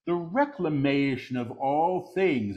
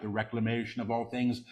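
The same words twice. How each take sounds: First: Deliberate full-voice repeat; measured proclamation. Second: Quick, soft undertone; hushed preview. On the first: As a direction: proclaim it clearly, word by word. Same words repeated in full voice. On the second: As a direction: say it softly and rapidly before proclaiming it. Quick soft take before repeating aloud. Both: Real, not acted.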